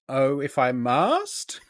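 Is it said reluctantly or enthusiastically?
enthusiastically. It is said with more enthusiasm.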